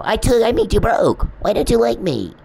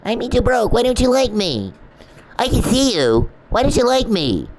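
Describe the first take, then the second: First: High, loud mock whine of a needy man; exaggerated high imitation, self-pitying and loud; mocking the stalker. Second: High, loud mock whine of a needy man; an exaggerated high, loud imitation of a self-pitying stalker; mocking the stalker again. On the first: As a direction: whine it like a pouting creep who ruined her. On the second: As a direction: drag out the pouting creep's whine.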